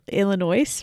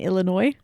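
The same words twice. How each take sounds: First: The word is pronounced as it is spelled. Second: The word is pronounced the usual way. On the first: The speaker calls it wrong. "how you said Illinois ... you read phonetically" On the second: The speaker calls it right. "rather than Illinois"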